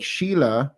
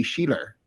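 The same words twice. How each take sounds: First: Said in the usual way. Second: SHEILA ending in an added R; Boston intrusive R. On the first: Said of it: "in the Boston accent". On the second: Shown as a demonstration. Host demonstrating Boston accent, R added to SHEILA. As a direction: put a Boston R on the end of SHEILA. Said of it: "R can show up randomly".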